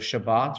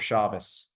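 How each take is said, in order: First: The word ends with a T sound. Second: The word ends with an S sound. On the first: This is the modern Hebrew form. "Sometimes it's like a T" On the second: This is the traditional form. "sometimes it's like an S"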